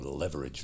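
The word is said with an American pronunciation. "as the Americans say"

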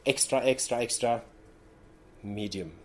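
It is said with pauses between words.

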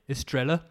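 It is said with a Birmingham accent. "If I was a Brummie"

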